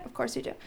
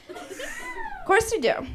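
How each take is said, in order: First: Said in the usual way. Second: Very high, slow, squeaky take on Of course you do; a high cartoon squeak, slowed right down; squeaky drawn-out answer. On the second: Shown as a demonstration.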